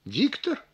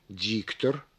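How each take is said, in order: First: «Диктор» as a question, stressed «Дик» pitched high. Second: ДИКтор in a low, soft voice, first syllable leaned on; stress on first syllable. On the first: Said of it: "а вопросительно". (вопросительно, с повышением голоса на «Диктор») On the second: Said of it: "выделяем первый слог некоторым усилением". (ударение на первый слог, негромко и низко) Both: Shown as a demonstration.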